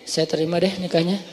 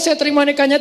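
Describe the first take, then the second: First: It is said sulkily and reluctantly. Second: It is said eagerly and with excitement.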